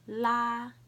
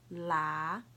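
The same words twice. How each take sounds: First: The pitch stays high and level. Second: The pitch rises from mid to high.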